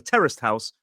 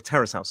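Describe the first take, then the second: First: A t sound is heard before 'house'. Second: No t sound is heard before 'house'. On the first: "terraced, that sound at the end" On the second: "does sometimes get dropped"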